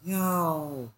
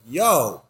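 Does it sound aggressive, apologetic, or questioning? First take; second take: apologetic; aggressive. First: It is said in an apologetic tone. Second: It is said in an aggressive tone.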